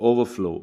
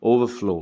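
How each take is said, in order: No difference in how they are said.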